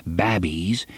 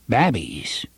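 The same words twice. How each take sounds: First: Babbies spoken low with a rising tune; northern baronies pronunciation. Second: Babbies said as "babbies" with a short a, northern style; northern baronies pronunciation. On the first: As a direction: repeat babbies, short a, northern style. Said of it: "as they did in the northern baronies". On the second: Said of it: "pronounced this last as they did in the northern baronies". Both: A narrator's reading.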